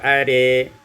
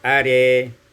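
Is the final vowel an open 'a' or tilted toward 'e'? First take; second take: tilted e; tilted e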